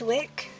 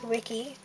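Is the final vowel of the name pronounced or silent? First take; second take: silent; pronounced. First: The name ends on a consonant, one syllable. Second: The name ends with a sounded final vowel.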